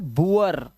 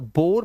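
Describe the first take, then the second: First: The vowel glides from oo to uh. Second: The vowel is a single oh sound. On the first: The speaker calls it right. "Double ओ का जो उच्चारण है वो उआ करना है आपको" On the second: The speaker calls it wrong. "अब इसे बुर या बोर मत पढ़ लेना"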